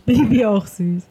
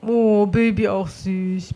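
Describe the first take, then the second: First: Said in the usual way. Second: Cooing. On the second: Real, not acted.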